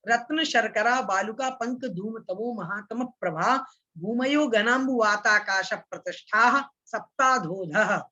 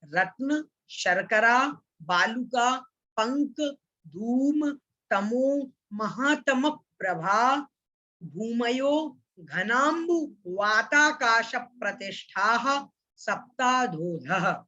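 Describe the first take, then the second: First: Words joined in pairs, flowing on; the whole sutra in one go; recited all together. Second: Each word separate, slowing to a crawl at the end; broken-up recitation. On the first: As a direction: run रत्न, शर्करा straight on, with no stop after each word. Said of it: "एक साथ मैं इसका उच्चारण करता हूं". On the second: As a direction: break the sutra into pieces, one word at a time. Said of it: "कैसे उच्चारण करना है". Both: Shown as a demonstration.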